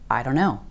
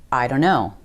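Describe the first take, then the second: First: The words blur together in a reduced form. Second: The words blur together in a reduced form.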